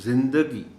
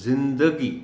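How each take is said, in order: First: The d is followed by a short a. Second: The same.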